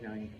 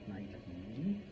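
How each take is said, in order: First: The final e is silent, one syllable. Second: The final e is pronounced, two syllables. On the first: This follows English spelling rules. "that's a silent E at the end, and so it should be Nike" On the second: This follows the Greek original. "not Nike"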